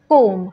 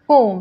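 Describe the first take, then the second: First: The word ends on the m sound alone. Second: The word ends on the m sound alone.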